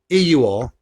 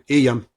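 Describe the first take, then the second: First: All three words are said in full. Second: The words run together into here yam. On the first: "instead of saying here you are" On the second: "we all go here yam"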